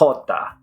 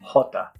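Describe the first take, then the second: First: The first sound is harsh and guttural, Peru/Spain style. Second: The first sound is soft like English h.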